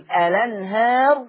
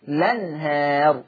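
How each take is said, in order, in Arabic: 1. تبدأ الكلمة بحرف علة قبل اللام. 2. تبدأ الكلمة مباشرة بصوت L. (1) "يحط همزة الوصل أنطقها فأقول" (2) "أشيل همزة الوصل حذف همزة الوصل"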